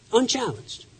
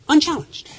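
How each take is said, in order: First: "Unchallenged." repeated much softer, dropping away; quiet echo. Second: First "Unchallenged." lifted high and firm; emphatic. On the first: Speaker letting the point settle, soft echo. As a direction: let "Unchallenged." sink to a hushed echo. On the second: Speaker stressing the navy's open seas, emphatic. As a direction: land "Unchallenged." as a pointed verdict. Repeated for rhetorical effect. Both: Real, not acted.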